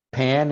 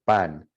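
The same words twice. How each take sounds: First: Pan with an aspirated English P. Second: Pan with an unaspirated Spanish P. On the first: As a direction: let the p of "pan" burst with air. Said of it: "you have that pa". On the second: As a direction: say "pan" with no air on the p. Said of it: "that air doesn't come out". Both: Shown as a demonstration.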